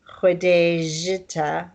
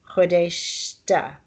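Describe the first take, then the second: First: The j is said as a hard j sound. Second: The j is softened into a shushing sound. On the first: The speaker calls it wrong. "You don't say Khodejita" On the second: The speaker calls it right. "you say Khodeshta"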